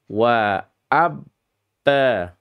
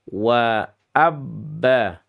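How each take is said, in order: Both takes have the same delivery.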